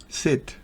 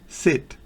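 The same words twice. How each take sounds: First: The vowel is a short, clipped i sound. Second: The vowel is a short, clipped i sound.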